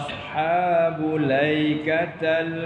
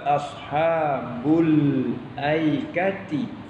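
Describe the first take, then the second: First: The word ends with a fathah 'a' vowel. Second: The word ends with a kasrah 'i' vowel. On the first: This is the reading of a minority of reciters. "Mereka baca begini" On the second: This is the reading of the majority of reciters. "jumhur termasuk kiraat kita"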